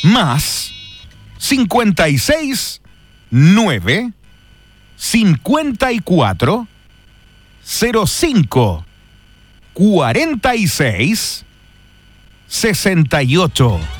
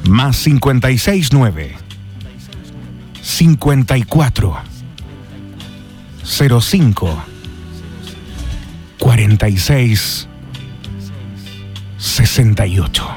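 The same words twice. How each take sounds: First: It is said in a plain, ordinary way. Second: It is said in a sensual, intimate way.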